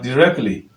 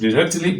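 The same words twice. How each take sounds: First: The t before -ly is dropped. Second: The t before -ly is pronounced. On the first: The speaker calls it right. "it is better to pronounce it as directly" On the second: The speaker calls it wrong. "what you are likely to find is directly"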